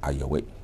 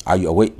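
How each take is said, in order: First: "Are you awake?" said much softer; soft repeat. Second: "Are you awake?" asked with a clear rise on awake; rising question. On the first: Teacher softly repeating the question for students. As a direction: murmur "Are you awake?" as a quiet echo. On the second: Teacher modelling a question to students, rising tune. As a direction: ask "Are you awake?" brightly, lifting awake. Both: Shown as a demonstration. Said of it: "awake က adjective".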